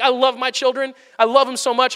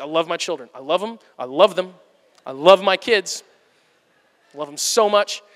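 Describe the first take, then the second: First: Bright and a touch higher, beaming; gushing parent. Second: Lower, flat and forced, through gritted teeth; strained parent. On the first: Father on good days loving his children, gushing and higher. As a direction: gush over your kids. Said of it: "some days I'm like". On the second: Father on hard days reminding himself he loves his kids, lower and strained. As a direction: force the love out. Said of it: "other days I'm like". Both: Acted.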